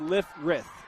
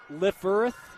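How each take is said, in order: First: The r sound comes before the vowel. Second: The r sound comes after the vowel. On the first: "I say Lifrith. That's how he told me" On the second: "I say it instead of Lifferth"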